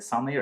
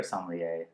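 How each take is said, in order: First: Sommelier ending in "-er", like "SOM-lee-er"; variant pronunciation. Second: Sommelier ending in "-ay", like "SOM-lee-ay"; variant pronunciation. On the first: Host weighs how to say the word, sommelier ending in "-er". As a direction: say sommelier with an r-coloured last syllable. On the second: Host weighs how to say the word, sommelier ending in "-ay". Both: Shown as a demonstration. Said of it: "Is it sommelier or sommelier".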